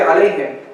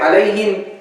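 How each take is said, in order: First: The vowels are reduced, as in casual dialect. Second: The vowels are full, as in careful classical recitation. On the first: This is how people naturally say it in everyday speech. "in Syria we say عليهم" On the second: This is the original classical pronunciation that people no longer use. "We don't say عليهم"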